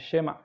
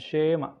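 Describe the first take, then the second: First: The first vowel is quick and very short. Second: The first vowel is drawn out and long. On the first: The speaker calls it right. "tapi dengan tempo yang cepat" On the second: The speaker calls it wrong. "bukan Shema"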